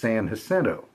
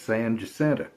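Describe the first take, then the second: First: The name has a non-local English pronunciation. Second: The name has a local Texan pronunciation. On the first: This is how outsiders assume it is said. "Everybody else would think is" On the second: This is how locals say it. "To us, it's"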